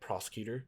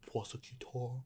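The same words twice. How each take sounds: First: It is said in the speaker's normal voice. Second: It is said in a dramatic put-on voice. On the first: The speaker calls it wrong. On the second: The speaker calls it right.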